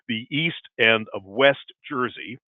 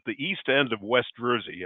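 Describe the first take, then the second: First: It is said slowly. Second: It is said at normal speed.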